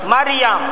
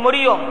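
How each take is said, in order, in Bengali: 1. নামটি 'Mariyam' হিসেবে বলা হয়। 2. নামটি 'Moriyom' হিসেবে বলা হয়। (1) "সহি উচ্চারণ কি? মারিয়াম।" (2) "অনেকে কই মরিয়ম, মরিয়ম না"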